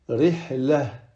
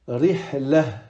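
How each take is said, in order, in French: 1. La dernière lettre se prononce comme un h doux. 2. La dernière lettre se prononce comme un h doux.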